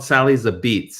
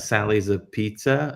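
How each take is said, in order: First: The last word is said like 'a beets'. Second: The last word is said like 'a pizza'. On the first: The speaker calls it right. "if you really are in the know how to pronounce it" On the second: The speaker calls it wrong. "but it's spelled Sally's a Pizza"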